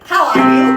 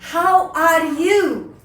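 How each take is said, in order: First: It is said flatly, without energy. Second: It is said with rising energy.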